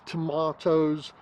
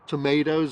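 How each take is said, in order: First: It is said with a British pronunciation. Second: It is said with an American pronunciation.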